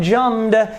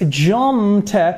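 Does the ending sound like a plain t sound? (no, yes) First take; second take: no; yes. First: The ending is not a plain t sound. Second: The ending is a plain t sound. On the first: The speaker calls it wrong. "It's not jumped" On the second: The speaker calls it right. "so it is a T sound"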